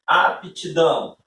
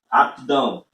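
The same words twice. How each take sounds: First: "aptidão" drawn out in three beats; "aptidão" slow, every syllable given its own beat; three-syllable pronunciation. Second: "aptidão" squeezed into two beats; "aptidão" wrongly shortened to two syllables; forced two-syllable pronunciation. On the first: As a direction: say "aptidão" slowly as ap-ti-dão, sounding the p apart. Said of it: "seriam três sílabas". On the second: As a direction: say "aptidão" as ap-dão, dropping the middle syllable. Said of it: "teria que dizer de duas vezes". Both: Shown as a demonstration.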